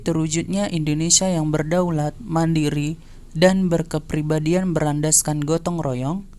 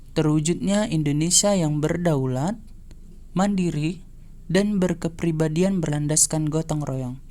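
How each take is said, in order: Both takes have the same delivery.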